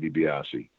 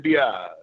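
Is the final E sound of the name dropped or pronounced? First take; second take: pronounced; dropped. First: The final E sound is said at the end. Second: The final E sound is left off. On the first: This is the technically correct way to say it. "technically you would say DiBiase" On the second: This is how many Italians would say it. "a lot of times they would drop that E"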